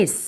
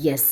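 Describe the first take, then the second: First: "S" as ess, starting on the vowel; correct pronunciation. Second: Letter S said as "yes", with a y glide; wrong pronunciation. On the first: Teacher models the letter name, "S" begun on a vowel. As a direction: open "S" on a plain e, no y. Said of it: "ഒരു vowel വെച്ചിട്ടാണ്". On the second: Teacher shows students the mistake, "yes" for the letter S. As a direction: put a y before the vowel: "yes". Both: Shown as a demonstration.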